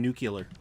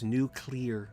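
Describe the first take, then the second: First: The middle sounds like 'yuh', nuke-yuh-ler. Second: The middle sounds like 'lee', nuke-lee-er. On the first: The speaker calls it wrong. "I keep saying nuclear" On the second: The speaker calls it right. "It's nuclear"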